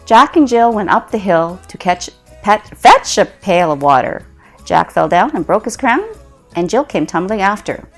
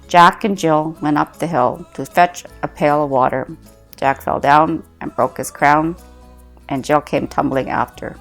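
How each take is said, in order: First: It is said with a smile. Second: It is said without a smile.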